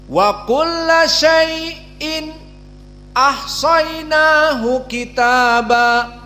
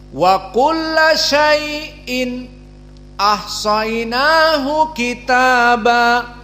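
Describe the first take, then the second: Both takes have the same delivery.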